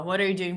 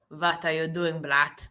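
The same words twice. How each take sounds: First: Said in the usual way. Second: Mock Russian accent, V for W; bad Russian accent. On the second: Shown as a demonstration. Streamer trying what a viewer suggested, hammed Russian accent. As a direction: put on a rough Russian accent. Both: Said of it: "Like that?".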